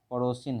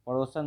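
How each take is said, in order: First: पड़ोसिन ending in -sin; correct form. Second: पड़ोसन ending in -san; wrong form. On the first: Teacher gives students the correction, correct form. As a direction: say पड़ोसिन with a short i in the last syllable. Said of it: "पड़ोसिन हैं". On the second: Teacher rejects the word for students, wrong form. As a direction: say पड़ोसन with an a in the last syllable. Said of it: "पड़ोसन नहीं". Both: Shown as a demonstration.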